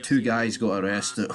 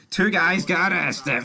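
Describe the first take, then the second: First: Said in the usual way. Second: Delighted higher slow repeat of arrested; gleeful, higher, slower repeat. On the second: Real, not acted. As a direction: repeat it slowly, higher and louder with glee.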